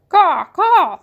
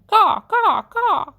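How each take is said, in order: First: High, loud crow caws. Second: High, loud mocking caws; crow caw. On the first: The Pellegrina crow answering Edward, loud high caws. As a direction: caw like a mocking crow. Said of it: "said the Pellegrina crow". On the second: Edward imagining himself a crow laughing at the man, high caws. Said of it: "laughed at the man". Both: A narrator's reading.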